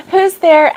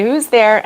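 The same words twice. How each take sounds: First: High, loud, playful question. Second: Said in the usual way. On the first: Pretend. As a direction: turn it into a joke. Jokes after her own sneeze.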